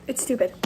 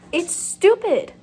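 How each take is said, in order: First: Said in the usual way. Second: "stupid" dragged out, loud and high; exasperated outburst. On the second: Real, not acted. Annoyed reader venting about a bad book, loud slow outburst. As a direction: blurt "It's stupid" slow and loud in frustration. Ranting about the book's plot.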